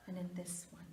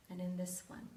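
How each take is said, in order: Both takes have the same delivery.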